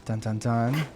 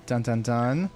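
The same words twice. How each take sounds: The two takes are said the same way.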